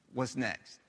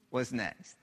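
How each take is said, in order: Both takes have the same delivery.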